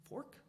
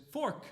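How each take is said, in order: First: Said in the usual way. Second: Loud, high, sudden blurt; blurted interruption. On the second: Retold or imitated. Daughter interrupts dad's question, blurting it out. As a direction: cut in with one sharp high word. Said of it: "before I'd finished the sentence".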